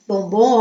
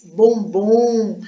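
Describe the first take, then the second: First: Said in the usual way. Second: "bombom" slowly drawn out; drawn-out word. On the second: Shown as a demonstration. Teacher sounding out the stress, drawn-out "bombom". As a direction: stretch "bombom" to show its stressed last syllable.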